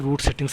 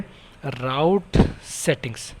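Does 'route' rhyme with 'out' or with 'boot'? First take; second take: boot; out. First: 'Route' is said with the vowel of 'boot'. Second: 'Route' is said with the vowel of 'out'. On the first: "आप जो भी pronounce करना चाहे वो कर सकते हैं" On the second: "आप जो भी प्रोनाउंस करना चाहे वो कर सकते हैं"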